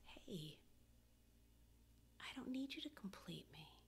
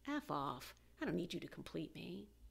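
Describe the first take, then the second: First: It sounds warm and friendly. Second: It sounds dismissive and hostile.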